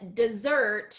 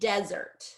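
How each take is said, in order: First: The stress is on the second syllable. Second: The stress is on the first syllable. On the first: The speaker calls it wrong. "you would stress the second syllable" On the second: The speaker calls it right. "first syllable"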